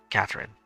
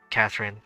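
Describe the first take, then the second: No difference in how they are said.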